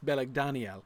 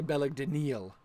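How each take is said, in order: First: The stress falls on the syllable dan. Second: The stress falls on a different syllable. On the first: The speaker calls it right. "I would definitely pronounce this Beleg Daniel" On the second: The speaker calls it wrong. "you wouldn't say Beleg Daniel"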